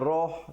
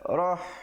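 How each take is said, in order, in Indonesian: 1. Vokal itu terdengar seperti 'o' membulat. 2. Vokal itu terdengar seperti 'a' terbuka. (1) "jangan roh, tak betul eh"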